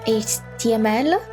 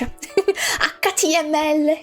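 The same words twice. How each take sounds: First: The letters are named with English letter names. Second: The letters are named with longer Italian letter names. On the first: "that's how you say it in, in English" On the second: "in Italian. we do we do letters very long"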